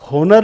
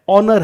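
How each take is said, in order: First: The word starts with an audible h sound. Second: The word starts with a vowel, no h. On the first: The speaker calls it wrong. "ये होनर नहीं है" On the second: The speaker calls it right. "ये क्या है? ऑनर है"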